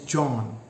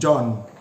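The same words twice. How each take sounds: First: The first consonant is released slowly. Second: The first consonant is released suddenly. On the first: The speaker calls it right. "the first sounds in John is African" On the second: The speaker calls it wrong. "not John"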